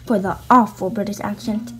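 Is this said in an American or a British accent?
American. It is spoken in the speaker's normal accent.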